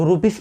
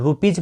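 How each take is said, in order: First: The word ends with an s sound. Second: The word ends with a z sound. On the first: The speaker calls it wrong. "कितने लोग रुपीस पढ़ते हैं?" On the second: The speaker calls it right. "रुपीज पढ़ना है"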